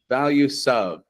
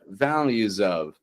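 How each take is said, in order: First: The s in values is an unvoiced hiss. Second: The s in values is a voiced buzz. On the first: The speaker calls it wrong. "not quite values of" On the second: The speaker calls it right. "but values of"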